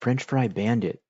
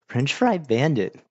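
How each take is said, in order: First: Said in the usual way. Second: "French Fry Bandit" drawn out slowly and higher; "French Fry Bandit" stretched out in puzzlement; puzzled repeat. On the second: Real, not acted.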